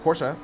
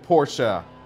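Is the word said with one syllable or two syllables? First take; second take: one syllable; two syllables. First: The word is clipped quickly into one syllable. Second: The word ends with a second syllable sounded. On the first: "I might have been saying it quickly, like Porsche" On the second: "I thought I've been saying Porsche"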